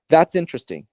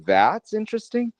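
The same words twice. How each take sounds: First: The word "that's" carries no special stress. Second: The word "that's" carries strong stress. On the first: It simply states that something is interesting. "That just simply is a statement" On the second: The speaker doubts that the thing is really interesting. "if I were to stress the word that"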